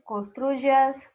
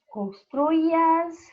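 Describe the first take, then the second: First: The y is pronounced like a j sound. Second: The y is pronounced like a vowel i. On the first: This is how it is said in most of Latin America. "ou como um J" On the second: This is how it is said in Spain. "pode ser pronunciado como um I"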